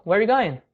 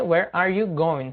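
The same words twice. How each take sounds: First: "Where you going" run together, with no "are"; casual spoken form. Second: "Where are you going" slowly, with "are" fully sounded; careful full form. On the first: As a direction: say "Where you going" quickly linked, as in everyday talk. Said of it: "você pode falar ali". ("Where you going" emendado, como na fala do dia a dia) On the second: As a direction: give each word of "Where are you going" its space. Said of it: "o correto seria". ("Where are you going" completo e devagar) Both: Shown as a demonstration.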